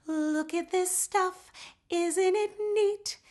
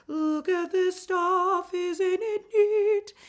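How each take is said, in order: First: High, slow line held back in the head; head voice placement. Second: High, slow line pushed forward in the mask. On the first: Teacher contrasts head placement with forward placement. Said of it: "Instead of it being back in the head". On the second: Teacher shows students the forward mixed placement. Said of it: "It's going to be forward". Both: Shown as a demonstration.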